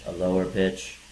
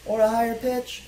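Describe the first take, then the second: First: Low, level monotone; lower pitch. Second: Very high, held monotone; higher pitch. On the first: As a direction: drop to one steady low note for every word. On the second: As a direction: chant it all on one high note. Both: Shown as a demonstration.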